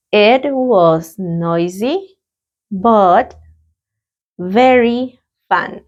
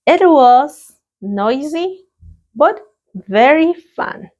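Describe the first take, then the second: First: Very slow repetition; a calm, drawn-out repetition of the answer; slow repeat. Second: Slow, bright model answer; a cheerful classroom model answer. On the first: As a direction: stretch every word for learners. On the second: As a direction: lift the voice brightly on noisy and fun. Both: Shown as a demonstration. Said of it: "Let's practice the pronunciation".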